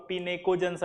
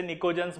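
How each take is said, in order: First: Pinacogons with the written P sounded; spelled-out pronunciation. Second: Nicogens begun straight on the N sound; silent P. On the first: Teacher showing students the spelling, Pinacogons with P voiced. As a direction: say Pinacogons as spelt, starting on P. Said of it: "आप अगर spelling बोलेंगे तो". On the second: Teacher showing students the spoken form, Nicogens with silent P. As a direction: drop the P, say Nicogens. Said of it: "पी silent रहता है". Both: Shown as a demonstration.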